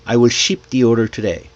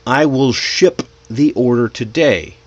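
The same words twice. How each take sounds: First: "ship" said like "sheep", sentence run together quickly; long-ee ship. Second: "ship" with a short relaxed i, spaced out; clear short-i ship. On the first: Teacher shows learners the vowel difference, "ship" as "sheep". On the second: Teacher shows learners the vowel difference, careful short-i "ship". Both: Shown as a demonstration. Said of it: "See the difference?".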